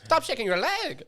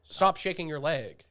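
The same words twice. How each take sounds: First: It is said in an imitated Russian accent. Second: It is said in the speaker's own plain accent.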